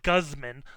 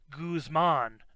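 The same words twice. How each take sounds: First: The first syllable sounds like 'guzzle'. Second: The first syllable does not sound like 'guzzle'. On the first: The speaker calls it wrong. "not Guzman, like Guz, like guzzling something" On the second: The speaker calls it right. "I've always heard it pronounced Guzman"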